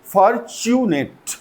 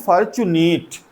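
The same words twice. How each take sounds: First: Fortunate slowly, ending in a short 'net'; "fortunate" drawn out, crisp short last syllable; corrected pronunciation. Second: Fortunate with a long 'ee' in the last syllable; "fortunate" mispronounced as far-chu-neet; common mispronunciation. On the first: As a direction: say "fortunate" carefully as for-chu-net. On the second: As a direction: say "fortunate" as if it ended in 'neet'. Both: Shown as a demonstration. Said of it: "that is very wrong".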